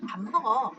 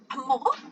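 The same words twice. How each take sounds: First: It ends with a plain, settled statement tune. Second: It ends with an asking, questioning tune. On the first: It tells what someone is doing. "첫 번째는 평자문이었어요" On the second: It asks whether someone is eating. "밥 먹는지 물어보고 싶어"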